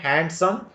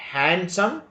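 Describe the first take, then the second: First: The D sound is pronounced. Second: The D sound is silent. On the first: The speaker calls it wrong. "Don't say handsome" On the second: The speaker calls it right. "D is not pronounced"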